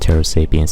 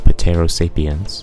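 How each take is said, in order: First: The word is said in the usual way. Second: The word is said in an unusual way. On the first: The speaker calls it right. "I know it's pronounced Pterosapiens" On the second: The speaker calls it wrong. "I said it incorrectly to make you angry"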